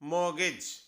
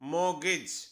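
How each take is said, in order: Both takes have the same delivery.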